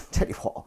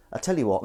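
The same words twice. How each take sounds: First: Breathy laugh through the words; half-laughed tell you what. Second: Said in the usual way. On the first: Real, not acted. Laughs then repeats.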